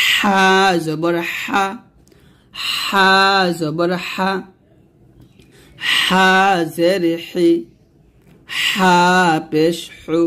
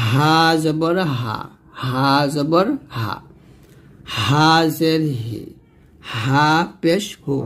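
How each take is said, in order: First: হা squeezed with a thin stream of air; slow, tight Arabic pharyngeal হা; pressed ha. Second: Said in the usual way. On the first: Shown as a demonstration. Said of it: "এই হাটা আমরা কিন্তু চাপ দিব". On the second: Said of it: "নরমালভাবে উচ্চারণ করব".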